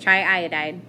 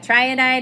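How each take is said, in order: First: The two i sounds are said separately. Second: The two i sounds run together into one. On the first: The speaker calls it right. "Two separate sentences" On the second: The speaker calls it wrong. "isn't good. That sounds like you tried and you died"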